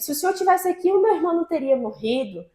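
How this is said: It is said in an angry, reproachful tone. The speaker is anxious and blames the listener. "Como se ela falasse brava com ele"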